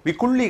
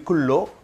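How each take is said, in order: First: The word ends in an 'ee' sound. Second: The word ends in an 'o' sound. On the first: The speaker calls it wrong. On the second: The speaker calls it right.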